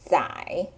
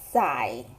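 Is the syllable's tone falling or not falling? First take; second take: not falling; falling. First: The syllable is said with a non-falling tone. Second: The syllable is said with a falling tone. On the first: It means to document. "the second pronunciation" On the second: It means to carry or to load. "with the fourth tone"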